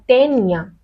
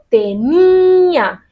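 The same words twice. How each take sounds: First: The stress falls off the middle syllable. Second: The stress falls on the middle syllable. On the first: The speaker calls it wrong. "No digo tenía o tenía" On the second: The speaker calls it right. "digo tenía. Esta i recibe fuerza"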